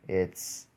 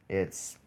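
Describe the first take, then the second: Both takes have the same delivery.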